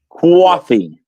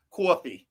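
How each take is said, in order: First: "Coffee." with a rounded kʰwɔ vowel; imitating coffee accent. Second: "coffee" rhotic, core-fee. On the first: Copying the Jersey "coffee" on request, kwaw-fee. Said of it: "Like that?". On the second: Teaching the New Jersey "coffee" to friends, core-fee. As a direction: say "coffee" with an r, kʰɔɹfi. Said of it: "it's core". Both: Shown as a demonstration.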